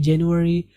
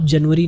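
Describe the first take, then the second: First: JANUARY as "jen-yu-a-ri"; English January. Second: JANUARY as Urdu "jan-va-ri"; Urdu-style January. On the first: Teacher models English month for learners, English January. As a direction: say "JEN-u-a-ri", with a w glide, no v. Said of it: "जनवरी नहीं कहेंगे English में". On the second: Teacher rejects Urdu name in English, Urdu-style January. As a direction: show the wrong "JAN-va-ri", with a v. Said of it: "आप जनवरी नहीं कहेंगे English में". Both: Shown as a demonstration.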